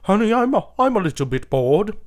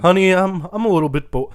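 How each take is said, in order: First: It is said in a put-on British accent. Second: It is said in the speaker's usual American accent.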